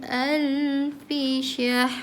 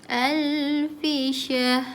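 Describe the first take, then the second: The two takes are said the same way.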